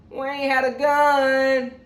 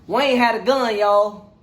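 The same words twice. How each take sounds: First: Drawn-out, every word weighted; dramatic slow repeat; slow emphatic reveal. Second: Said in the usual way. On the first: Real, not acted. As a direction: let the reveal land slowly.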